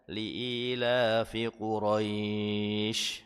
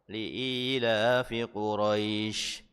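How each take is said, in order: First: The glide in Quraisy is drawn out long. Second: The glide in Quraisy is held for two counts. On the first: "dibaca panjang juga bisa" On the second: "atau mau dibaca dua harokat juga tidak mengapa"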